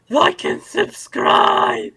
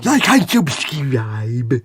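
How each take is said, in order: First: Lispy, high, drawn-out whisper; hammed-up lisping plea; slushy lisp. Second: Slow, slushy lisped whisper; lateral lisp. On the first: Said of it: "As, as Retro Rabbit Studios correctly says". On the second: Shown as a demonstration. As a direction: lisp it wetly through the sides. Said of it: "Gotta have that lateral lisp".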